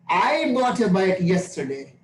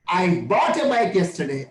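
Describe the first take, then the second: First: The word I is stressed. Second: The word bought is stressed.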